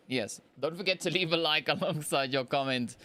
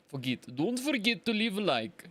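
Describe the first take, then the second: First: Said in the usual way. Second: Put-on playful Russian accent. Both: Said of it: "That wasn't a bad Russian accent".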